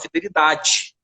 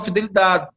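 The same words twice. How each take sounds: First: Rio accent, every syllable stressed, di like dji. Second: Local accent with the word endings swallowed.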